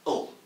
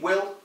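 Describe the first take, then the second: First: The word is said reduced to a short 'ul' sound. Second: The word is said in full with a clear 'w' and vowel. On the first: The speaker calls it right. "you read it ul" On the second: The speaker calls it wrong. "You don't read will"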